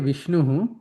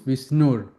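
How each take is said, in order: First: The word ends with a breathy 'hu' sound. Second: The word ends with an 'r' sound. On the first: The word stands alone, split from the next word. "when I say Vishnuhu" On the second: The word is joined to the following word. "when you combine them, ... then it becomes Vishnur"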